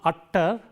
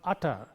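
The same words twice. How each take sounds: First: The middle t sound is held long. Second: The middle t sound is short and single. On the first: The speaker calls it wrong. "not utter" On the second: The speaker calls it right. "but utter"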